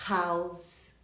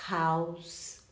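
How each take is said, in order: Both takes have the same delivery.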